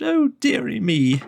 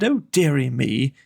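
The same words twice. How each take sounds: First: Hammed-up sobbing king; mock sob. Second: Said in the usual way. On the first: A narrator's reading. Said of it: "The King sobbed".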